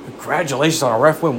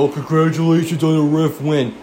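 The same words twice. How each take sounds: First: Baffled, questioning echo of the insult; incredulous repeat. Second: Smug, gloating jab at the fan; mocking troll quote. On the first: Real, not acted. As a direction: throw it back in disbelief. Repeating the troll in disbelief. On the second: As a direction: sneer it like a gloating rival fan. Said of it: "and they go".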